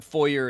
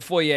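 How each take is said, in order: First: Foyer said FOY-er with an American r ending. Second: Foyer said foy-AY with no r ending; the posh foyer, foy-ay. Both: Shown as a demonstration. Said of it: "I say it both ways".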